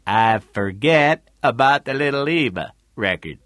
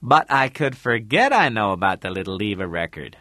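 First: Louder character voice echoing a line; Tootie's repeating. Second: Said in the usual way. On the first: A narrator's reading. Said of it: "Tootie repeated". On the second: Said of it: "Then you say".

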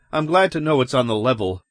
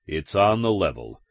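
First: Quick, lightly relieved remark. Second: Confirming cop. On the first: Man telling cops he is glad, relieved. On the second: Cop reassuring the man it's on the level, even. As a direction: state it back evenly, without excitement. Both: Acted.

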